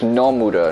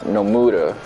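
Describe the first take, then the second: First: The stress is on the first syllable. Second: The stress is on the second syllable. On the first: The speaker calls it right. "emphasizing the first syllable" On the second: The speaker calls it wrong. "not the second"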